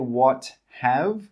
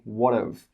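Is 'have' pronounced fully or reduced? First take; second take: fully; reduced. First: The word 'have' is pronounced fully. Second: The word 'have' is reduced to 'of'. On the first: The speaker calls it wrong. "We don't say what have" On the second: The speaker calls it right. "we say what of"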